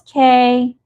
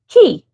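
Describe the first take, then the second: First: The word is pronounced like 'kay'. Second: The word is pronounced like 'key'. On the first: The speaker calls it wrong. "I thought it was K" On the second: The speaker calls it right. "I found out it's actually key"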